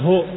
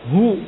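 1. Vokalnya adalah bunyi o yang terbuka. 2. Vokalnya adalah bunyi u yang membulat. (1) "bukan ho" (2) "kalau dhammah mulutnya dimajukan"

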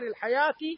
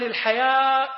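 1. تنتهي الكلمة بصوت التاء. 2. تنتهي الكلمة بهمزة. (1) "بالتاء المربوطة" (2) "بالهمزة"

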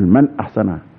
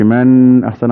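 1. صوت النون يُنطق بوضوح وتمييز. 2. صوت النون مبهم ومخفي في الغنة. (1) "لا ده اسم أظهر حلق، تقول من أحسن" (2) "ما تقولش من أحسن عمل"

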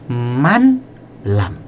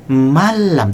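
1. n dibaca terpisah sebelum l. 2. n menyatu sepenuhnya dengan l setelahnya. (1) "tidak boleh man lam" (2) "Dibaca malam"

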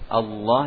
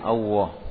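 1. Konsonan tengah adalah bunyi L yang jelas. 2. Konsonan tengah digantikan dengan bunyi W. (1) "mengucapkan lam ini harus dibaca dengan makhrajnya lam" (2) "mengganti lam pada lafzul jalalah dengan huruf waw"

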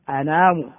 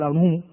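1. الحركة بعد النون هي الألف الطويلة. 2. الحركة بعد النون هي الواو الطويلة. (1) "تقول إيه؟ أنام" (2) "ما تقول أنوم"

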